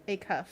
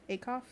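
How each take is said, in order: First: "Acuff." with a falling tune, decided; settled name. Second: "Acuff?" with a rising question tune, unsure; questioning name. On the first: The streamer settles on a friend's name, confident. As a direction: state "Acuff." firmly with a closing fall. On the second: The streamer unsure how to say a friend's name, questioning. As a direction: try out "Acuff?" as a quiet guess that rises at the end. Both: Shown as a demonstration. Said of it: "Is that how you say it?".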